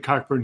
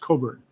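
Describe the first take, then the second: First: It is said with a K sound, as spelled. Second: It is said without a K sound, as Coburn. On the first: The speaker calls it wrong. "you say Cockburn" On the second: The speaker calls it right. "pronounce it properly as Coburn"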